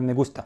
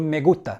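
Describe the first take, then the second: First: The s sound is pronounced clearly. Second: The s sound is dropped. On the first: "بدل" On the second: "بياكلوا الاس كده"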